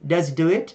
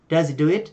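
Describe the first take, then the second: First: Does runs into he with the h dropped. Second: The same.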